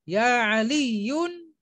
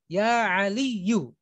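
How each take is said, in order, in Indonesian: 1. Nama itu berakhir dengan bunyi n. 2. Nama itu berakhir pada vokal, tanpa n. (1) "itu salah"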